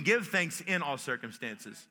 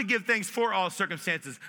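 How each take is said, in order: First: "in" picked out as the contrast word; stress on in. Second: "for" set up as the contrast word; stress on for. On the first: Preacher offering what we can do, stress on "in". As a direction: lean on "in", then let the phrase drop. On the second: Preacher saying what is tough to do, stress on "for". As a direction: lean on "for" against "in". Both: Shown as a demonstration. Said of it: "that's the difference between thanking for and thanking in".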